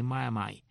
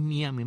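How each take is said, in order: First: "Miami" as mah-yah-MY; local pronunciation. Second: "Miami" as mee-AH-mee; rejected pronunciation. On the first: Host corrects to the local name, "Miami" as mah-yah-MY. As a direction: finish "Miami" with "mai", not "mee". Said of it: "la M I final la pronuncian como Mai". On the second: Host marvels at the odd name, "Miami" as mee-AH-mee. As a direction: say "Miami" as spelled in Spanish, mee-AH-mee. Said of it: "no es Miami". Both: Shown as a demonstration.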